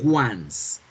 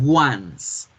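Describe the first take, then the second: First: It sounds like the English word for one time. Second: It sounds like the English word for one time.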